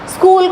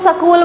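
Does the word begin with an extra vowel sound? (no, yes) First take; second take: no; yes. First: The word starts directly with the consonant cluster. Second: A vowel is added before the consonant cluster. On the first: The speaker calls it right. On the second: The speaker calls it wrong.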